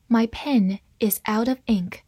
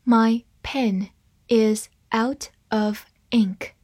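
First: Said in the usual way. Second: Slow, word by word; deliberate teaching pace, words separated; slow reading. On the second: Shown as a demonstration. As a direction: read slowly with a gap after each word. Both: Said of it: "慢慢来读".

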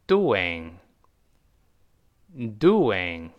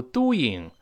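First: DOING said slowly as "du-wing"; DOING drawn out as "du-wing" for repeating; linking w. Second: DOING said as "du-ying", no w; DOING with the linking w left out; mistaken pronunciation. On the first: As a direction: put a rounded w inside DOING. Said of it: "而要读成". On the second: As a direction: say DOING wrongly, gliding straight into "ing". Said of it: "不要读doing". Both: Shown as a demonstration.

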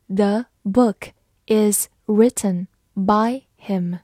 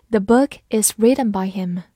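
First: Slow, word-by-word model reading. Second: Said in the usual way. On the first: Shown as a demonstration. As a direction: read slowly, each word on its own. (慢速逐词朗读) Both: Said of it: "慢读一遍".

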